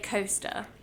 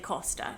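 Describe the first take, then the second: First: Costa is said with an American pronunciation. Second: Costa is said with a British pronunciation. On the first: "Americans say Costa" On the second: "British people say Costa"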